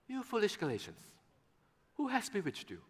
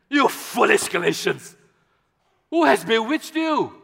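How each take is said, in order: First: It is said gently and nicely. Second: It is said harshly and sternly.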